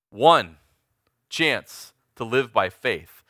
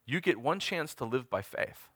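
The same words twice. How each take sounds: First: "One" hit loud and alone, then a pause; emphatic word by word. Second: Said in the usual way. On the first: Shown as a demonstration. Preacher driving home there is only one chance, emphatic and slow with "One" punched.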